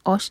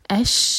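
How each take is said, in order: First: The vowel is heavy and rounded, like oush. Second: The vowel is light and open, like ash. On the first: The speaker calls it wrong. "الف کو ہیوی نہ ہونے دیں، اوش نہیں کہنا" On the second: The speaker calls it right. "اش اش"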